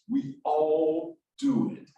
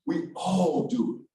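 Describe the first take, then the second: First: "we all do it" stretched slowly, DO lifted at the end; drawn-out emphasis. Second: Slow "We all do it", weight on "all", falling close; stress on ALL. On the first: Speaker including himself with the audience, slow emphatic rise. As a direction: draw out "all do it", rising on "do". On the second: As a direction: lean on "all" and let the end drop. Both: Real, not acted. Repeats point to include everyone.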